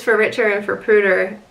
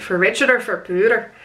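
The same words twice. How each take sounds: First: Said in the usual way. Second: Imitating a light Scottish accent. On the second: Bride imitates groom saying his vows, in a Scottish accent. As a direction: put on a hint of Scottish for the quote. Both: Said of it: "He put on a Scottish accent when he said it".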